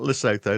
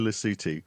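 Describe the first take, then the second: First: The name is said in an anglicized way. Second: The name is said in the native way. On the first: The speaker calls it wrong. "not Lesotho" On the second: The speaker calls it right. "nobody's ever pronounced properly before this podcast"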